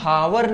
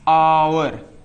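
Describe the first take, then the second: First: The word begins with an audible h sound. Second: The word begins directly with a vowel sound. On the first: The speaker calls it wrong. "इसको हम हावर नहीं पढ़ सकते" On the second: The speaker calls it right. "इसको हम पढ़ेंगे क्या, आवर"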